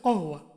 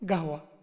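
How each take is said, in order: First: The word begins with a deep k-like sound. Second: The word begins with a g-like sound. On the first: This is the original form of the word. "মূল শব্দটা হচ্ছে কহওয়া" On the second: This is how Arabs commonly say it. "ওরা কি বলে? গাহওয়া। কফটাকে ওরা গাইন বলে।"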